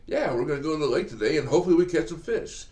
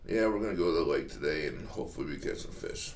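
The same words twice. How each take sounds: First: It sounds energetic and eager. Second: It sounds flat and unenthusiastic. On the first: The speaker can't wait for the trip. The speaker calls it right. "if you say it like this" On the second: The speaker dreads the trip. The speaker calls it wrong. "If you say it like that"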